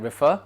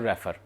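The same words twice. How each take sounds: First: It is said in a British English accent. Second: It is said in a common Indian English way. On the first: The speaker calls it right. "British English में होता है रेफर" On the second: The speaker calls it wrong. "हमारे mostly जो लोग हैं वो उसको कहते हैं रेफर"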